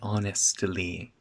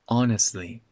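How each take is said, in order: First: The T sound is clearly pronounced. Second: The T sound is dropped. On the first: The speaker calls it wrong. "We don't say honestly" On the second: The speaker calls it right. "That T disappears"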